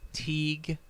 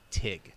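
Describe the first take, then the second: First: The vowel is a long 'ee' sound. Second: The vowel is a short 'i' sound. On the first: The speaker calls it wrong. "I have been pronouncing it Teague" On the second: The speaker calls it right. "it's Tig"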